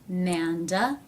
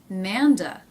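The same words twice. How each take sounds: First: The pitch rises on the word. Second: The pitch falls on the word. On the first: It ends a yes-no question. "Rising intonation" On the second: It ends a question that is not yes-no. "Falling intonation"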